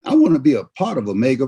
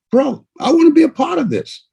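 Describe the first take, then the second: First: Said in the usual way. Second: Higher, eager declaration. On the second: Retold or imitated. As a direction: say it like you really want in. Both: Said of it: "You made a decision".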